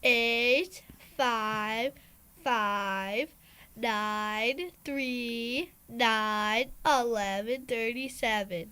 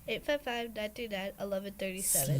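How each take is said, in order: First: The number is read slowly. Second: The number is read quickly.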